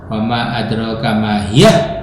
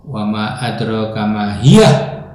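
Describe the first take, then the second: The two takes are said the same way.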